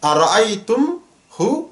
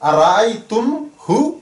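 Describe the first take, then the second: The two takes are said the same way.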